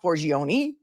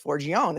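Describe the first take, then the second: First: The name ends with a sounded final vowel. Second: The name ends without a final vowel sound. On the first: The speaker calls it wrong. "It's not Forgione unless it ends in an I" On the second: The speaker calls it right. "we don't pronounce it that way"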